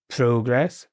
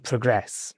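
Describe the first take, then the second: First: Progress stressed on PRO; noun stress on first syllable. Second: Progress stressed on GRESS; verb stress on second syllable. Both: Shown as a demonstration. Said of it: "the words here are".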